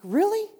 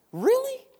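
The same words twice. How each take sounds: First: Rising, higher "really?" in mock disbelief; incredulous really. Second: "Really?" shot up very high in disbelief; squeaky incredulous really. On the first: Preacher mocking the doubting Israelites, incredulous rise. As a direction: ask "really?" like you can't believe it. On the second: Pretend. Preacher echoing his disbelief at the Israelites, squeaky high. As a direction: push "Really?" way up, stunned.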